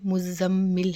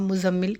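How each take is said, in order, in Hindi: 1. इसे अरबी लहजे में बोला गया है, दोहरी ध्वनियों के साथ। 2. इसे उर्दू लहजे में बोला गया है, बिना दोहरी ध्वनियों के। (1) "अरबिक में मुज़म्मिल है" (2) "उर्दू लुगत में अगर पढ़ेंगे तो हम मुज़म्मिल कह सकते हैं"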